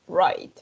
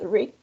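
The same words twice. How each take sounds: First: The vowel is the 'eye' sound. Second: The vowel is not the 'eye' sound. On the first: The speaker calls it right. "There you have letter I. ... que en inglés es la I" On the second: The speaker calls it wrong. "It's not right"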